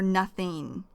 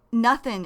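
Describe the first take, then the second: First: "nothing" with its full -ing ending; full form. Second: "nothing" with a dropped g, ending in -in. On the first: Teacher explaining the short form, "nothing" with full -ing. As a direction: give "nothing" the complete ing sound. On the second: Teacher showing learners the short form, "nothing" ending in -in. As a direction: say "nothing" casually as nuth-in. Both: Shown as a demonstration. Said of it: "is short for nothing".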